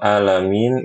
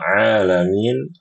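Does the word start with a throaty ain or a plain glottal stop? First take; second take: glottal stop; throaty ain. First: It begins with a plain glottal stop. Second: It begins with a deep throaty ain sound. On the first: It means pain or illness. The speaker calls it wrong. "Kalau alamin itu rasa sakit" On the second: It means the universe. The speaker calls it right. "Kalau alamin, alam semesta"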